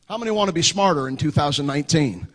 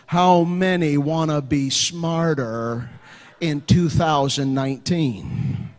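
First: The question is spoken at a normal pace. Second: The question is spoken at a slower pace.

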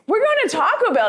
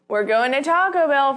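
First: It is said in a pumped, excited tone. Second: It is said in a light, joking tone. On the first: The plan is a firm decision. "because I am pumped and I am excited" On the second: The plan is not meant seriously. "but I'm just joking. I'm just going to say it that way"

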